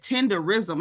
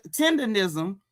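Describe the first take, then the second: First: "tenderism" without the second n, as tender-ism; miscopied word. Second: "tenderism" with an n, as tender-nism; Unc's wording. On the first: Retold or imitated. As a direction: imitate the botched "tenderism", tender-RISM. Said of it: "at least get the words right". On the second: Shown as a demonstration. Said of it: "He started copying Unc".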